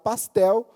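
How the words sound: It is said in a Paulista accent.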